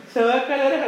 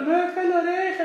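First: High, louder imitated whine; mock whining. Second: High mock sob, much higher; imitated crying. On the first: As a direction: retell her panicky cry, hammed up. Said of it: "me dijo, me dijo". (queja chillona imitada, más aguda) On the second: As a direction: whine it like a crybaby, hammed up. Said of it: "Y estaba llorando". (imitando llanto agudo, exagerado)

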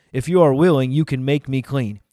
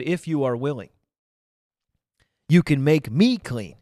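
First: Verse read out firmly and louder; loud scripture reading. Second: "if" and "me" picked out, with a pause before "you can make me clean"; stress on key words. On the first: Acted. Preacher reads the leper's words to listeners, loud reading. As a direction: project the leper's plea as scripture. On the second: Shown as a demonstration. Preacher points out how the leper said it, stressing "if" and "me". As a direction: lean on "if", pause, then punch "me". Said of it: "Notice how he said".

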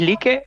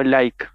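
First: "like" read as Spanish LI-ke, two syllables. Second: "like" said the English way, LAIK; English pronunciation of like. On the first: Asking how the others say it, "like" as LI-ke. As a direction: say "like" by its Spanish spelling, LI-ke. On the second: Offering the other option, "like" as English LAIK. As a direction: say "like" as one syllable, rhyming with bike. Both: Shown as a demonstration. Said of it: "¿Decís like o like?".

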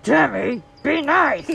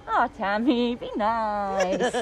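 First: "Tammy, be nice" said louder and sharper, "nice" pitched high; stern self-warning. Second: Gentle self-reminder. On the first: Warning herself to behave, louder and stern. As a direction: bark "Tammy, be nice" at yourself firmly. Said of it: "Sometimes I have to say it like". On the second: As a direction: coax "Oh, Tammy, be nice" kindly to yourself. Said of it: "sometimes I can say". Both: Shown as a demonstration.

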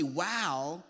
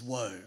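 First: "Wow." said as an amazed wow. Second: "Woe." said low as a mournful woe. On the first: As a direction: say "Wow." like an impressed exclamation. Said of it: "he doesn't say". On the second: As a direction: say "Woe." as a grieving sigh. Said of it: "He says". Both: Shown as a demonstration.

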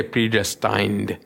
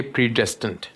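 First: "predestined" as the reader says it; "predestined" copied from the reader; the reader's "predestined"; the listener's way of saying it. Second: "predestined" in the preacher's own accent; "predestined" said his habitual way; his usual "predestined"; his own way of saying it. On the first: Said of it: "I may not say predestined". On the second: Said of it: "clear with my pronunciation and my accent". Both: Shown as a demonstration.

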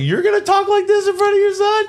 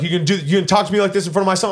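First: Very high, squeaky mock disbelief; incredulous echo. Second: Rushed, higher retold challenge; indignant challenge. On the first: Storyteller answering the father, incredulous. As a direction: throw the challenge back way up high. Echoes man's challenge back, incredulous. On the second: Retelling father objecting in front of son, indignant. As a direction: fire it off fast as the offended father.

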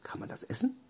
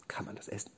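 First: Soft, high little squeak of a question; tiny high voice, softly questioning; high-pitched question. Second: Very soft, near-whispered query; barely voiced, tentative question; hushed question. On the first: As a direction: ask it small and high. Same question asked again, squeaky. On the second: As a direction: ask it under your breath. Robby sniffs and asks doubtfully. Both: A narrator's reading.

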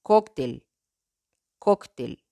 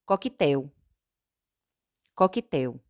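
First: "cóctel" in Spanish, stressed on CÓC. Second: "coquetel" in Portuguese, stressed on TEL. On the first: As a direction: say "cóctel" as KOK-tel. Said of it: "En español". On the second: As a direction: say "coquetel" as ko-ki-TEW. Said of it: "En portugués". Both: Shown as a demonstration.

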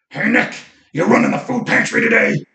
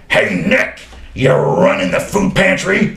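First: Much higher rough mock greeting; imitating Mark's rough voice. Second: Louder, higher rough mock greeting; imitating Mark's rough voice. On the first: Client Mark bursting into Nick's office, rough imitation. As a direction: shout it like the usual morning ritual. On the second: Client Mark greeting Nick at the office door, rough imitation. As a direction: call it out like a regular's morning hello. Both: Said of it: "he had this rough voice".

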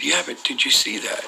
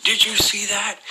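First: Higher, contained insistent question; mildly urgent, pitched-up repeat. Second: High-pitched, shocked exclamation; startled question in a much higher voice. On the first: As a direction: retell pressing the point after being hushed. Repeats question after being shushed. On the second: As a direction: retell your shock, voice shooting right up. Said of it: "it shocked me". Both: Retold or imitated.

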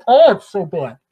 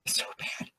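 First: Loud, dismayed groan of a remark; exasperated. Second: Barely voiced, dismayed whisper; exasperated whisper. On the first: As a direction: cry it out in exasperation. Exasperated reaction to politicians. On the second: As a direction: whisper it in disbelief. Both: Real, not acted.

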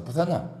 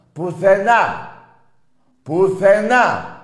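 First: Said in the usual way. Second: Higher and louder, dragged out slowly; drawn-out yelled nowhere; slow shouted taunt. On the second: Real, not acted. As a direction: bellow the word slowly to rub it in. Repeats word as shouted taunt.

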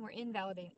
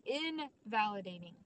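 First: Said in the usual way. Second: Invalidating said slowly, each syllable weighted; stress on invalidating. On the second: Shown as a demonstration. Speaker to her audience, landing the word Invalidating slowly and firmly. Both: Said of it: "what is the word?".

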